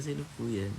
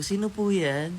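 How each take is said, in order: First: Said in the usual way. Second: High, loud polite call through the door; sing-song answering the door. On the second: Retold or imitated. Answering the doorbell as a child.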